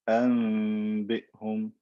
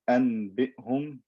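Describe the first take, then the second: First: A nasal m sound comes before the b. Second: A clear n sound comes before the b.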